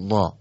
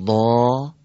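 First: ضا with a quick, short a; short vowel. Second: ضا with the a drawn out long and full; long vowel. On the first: Teacher reads the short-vowel take for the class, brief. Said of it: "و بعد حرکت کوتاه رو". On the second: Teacher reads the long-vowel take for the class, drawn out. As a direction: stretch the vowel of ضا. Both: Shown as a demonstration.

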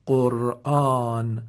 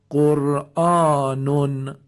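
First: قرآن very slow, closed on a vowelless n; pausal silent ending. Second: قرآنون slow and louder, ending "-nun"; tanwin sounded. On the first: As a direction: end drawn-out قرآن on n, "qur'aan". (تلفظ کشیدهٔ قرآن با نون ساکن) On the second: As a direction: draw out قرآنون as "qur'aanun". (تلفظ کشیدهٔ قرآنون با تنوین ضمه) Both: Shown as a demonstration.

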